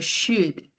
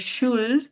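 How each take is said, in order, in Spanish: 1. La L se omite. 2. La L se pronuncia. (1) "Should es como si obviara la pronunciación de la L" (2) "yo no digo should"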